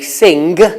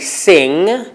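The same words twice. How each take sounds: First: It is said with a Northern English pronunciation. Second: It is said in the standard way. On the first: "They say sing and singer. This is not standard, but it's not wrong. It's a regional pronunciation" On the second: "some people from Northern England don't say sing"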